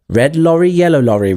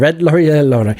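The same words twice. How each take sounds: First: The phrase is said at a slow pace. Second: The phrase is said at a fast pace.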